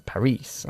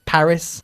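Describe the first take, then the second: First: PARIS stressed on the end, pa-REES, low and soft; second-syllable stress. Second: PARIS stressed on PA, English style; first-syllable stress. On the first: Teacher showing the non-English way, Paris stressed late. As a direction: lean on the last syllable of Paris. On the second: Teacher showing English pronunciation, Paris stressed up front. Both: Shown as a demonstration. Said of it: "put the emphasis on the first syllable".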